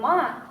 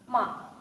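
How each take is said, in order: First: It is said with the tone meaning horse. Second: It is said with the tone meaning insult. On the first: The word means horse. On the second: The word means to insult. "means to insult"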